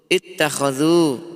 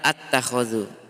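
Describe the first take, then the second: First: The word begins with the vowel i. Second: The word begins with the vowel a. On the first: The speaker calls it right. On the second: The speaker calls it wrong.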